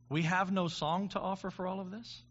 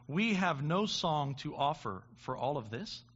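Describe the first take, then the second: First: "have" lifted in a rising question; questioning stress on have. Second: Said in the usual way. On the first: Shown as a demonstration. Preacher echoing the quote back as a question, stressing "have". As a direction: ask it back, leaning on "have".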